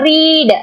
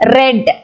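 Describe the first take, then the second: First: The vowel is long, like 'reed'. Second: The vowel is short, like 'red'. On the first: The action happens now. "in the present tense you should read it as a read" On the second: The action happened in the past. "but the pronunciation red"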